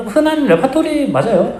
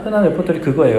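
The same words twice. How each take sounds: First: 흔한 drawn out high with a rise; stress on 흔한. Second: Said in the usual way. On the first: Shown as a demonstration. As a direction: lift and stretch 흔한.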